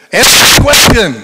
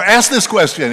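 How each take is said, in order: First: Much higher, much louder divine command; booming God voice. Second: Higher, louder but reined-in call; firm command. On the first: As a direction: thunder it down from heaven. God repeats the call, booming. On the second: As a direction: say it firmly, a notch down. Same call, less extreme. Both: Acted.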